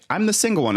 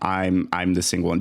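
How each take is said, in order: First: It is said in a cheerful, upbeat tone. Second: It is said in a sad, deflated tone. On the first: Being single is a good thing with more freedom. "the tone is never like" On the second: Being single is something to feel bad about. "It's always like, womp womp"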